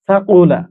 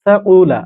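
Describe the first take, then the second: No difference in how they are said.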